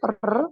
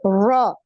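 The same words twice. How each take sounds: First: The r is trilled several times. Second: The r has no trill at all. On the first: "ini kebanyakan, ya masih lebih dari sekali" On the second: "seperti orang Inggris ... nggak ada getarannya"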